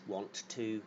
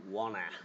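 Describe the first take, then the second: First: Both words are said fully and separately. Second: The two words merge into one reduced word. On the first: "the way we say that" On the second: "we often say wanna"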